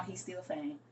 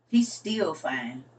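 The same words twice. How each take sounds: First: Said in the usual way. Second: "He's still fine" drawn out slowly, leaning on "He's"; slow emphatic repeat. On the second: Shown as a demonstration.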